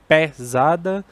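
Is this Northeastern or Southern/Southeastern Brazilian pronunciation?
Northeastern. It is said with a Northeastern Brazilian pronunciation. "no Nordeste a gente tem"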